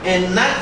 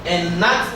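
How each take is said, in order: No difference in how they are said.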